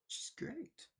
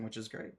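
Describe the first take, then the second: First: High, soft, wispy put-on voice; silly echo voice. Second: Said in the usual way. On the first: Streamer echoing their own praise of a viewer, silly little voice. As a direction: repeat it as a tiny playful aside.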